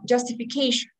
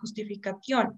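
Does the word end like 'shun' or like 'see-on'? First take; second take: shun; see-on. First: The word ends with a 'shun' sound. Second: The word ends with a 'see-on' sound. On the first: The listener easily understands the word. The speaker calls it right. "instead of pronouncing it like that" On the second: The listener probably cannot understand the word. The speaker calls it wrong. "I say justificación, right? And is the listener going to understand what I'm saying? Probably not"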